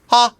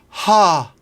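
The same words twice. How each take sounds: First: The vowel starts quickly without extra air. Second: The vowel starts with a lot of breath. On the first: The speaker calls it right. "without air on the H. Almost like a seal" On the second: The speaker calls it wrong. "with too much breath"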